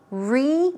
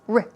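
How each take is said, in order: First: It is a full syllable with a long 'ee' vowel. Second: It is a short 'r' with a reduced vowel. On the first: The speaker calls it wrong. "it's not really a re sound" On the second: The speaker calls it right. "no, it's r, r"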